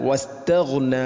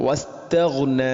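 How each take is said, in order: The two takes are said the same way.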